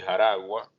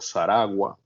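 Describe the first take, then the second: First: It is said with the usual Spanish pronunciation. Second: It is said with the Taíno pronunciation.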